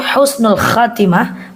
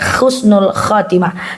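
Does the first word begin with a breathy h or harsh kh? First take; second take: breathy h; harsh kh. First: The first word begins with a soft breathy h. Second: The first word begins with a harsh throaty kh. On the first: It means a good ending. The speaker calls it right. "Yang benar adalah ha, ha, husnul khatimah" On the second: It means a despicable ending. The speaker calls it wrong. "khusnul itu artinya hina"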